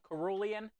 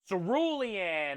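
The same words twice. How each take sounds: First: The word begins with a K sound. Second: The word begins with an S sound. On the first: The speaker calls it wrong. "what was I saying?" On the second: The speaker calls it right. "It's a it's an S, not a C"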